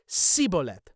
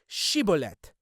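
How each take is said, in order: First: The word begins with an 's' sound. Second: The word begins with a 'sh' sound. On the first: The speaker is from the tribe. "So instead of she, he would say si" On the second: The speaker is not from the tribe. "if he was fr- not from Ephraim, he would say Shibolet"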